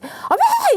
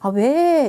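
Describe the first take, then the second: First: The reply sounds sharp and rough. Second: The reply sounds soft and warm. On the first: The listener is startled and runs away. The speaker calls it wrong. "놀래서 도망가는 거잖아요" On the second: The listener feels invited to come closer and talk. The speaker calls it right. "다가와서 다시 말문을 열 텐데"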